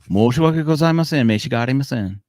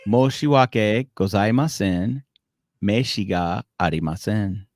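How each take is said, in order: First: It is said at natural, quick speed. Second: It is said slowly and deliberately.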